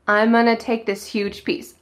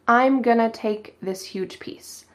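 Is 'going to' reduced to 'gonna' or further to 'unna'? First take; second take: unna; gonna. First: The phrase is reduced to 'unna' without the g. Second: The phrase is reduced to 'gonna' with the g. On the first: "we might reduce it even more, cut off the G" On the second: "we reduce "going to" "gonna.""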